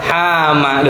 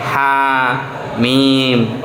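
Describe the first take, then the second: First: It is read as one word ending in 'ma'. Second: It is read as two letter names ending 'mim'. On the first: The speaker calls it wrong. "ada yang masih membaca. Saya kaget itu" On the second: The speaker calls it right. "ini bacanya sesuai kita kalau belajar mengucapkan huruf hijaiyah"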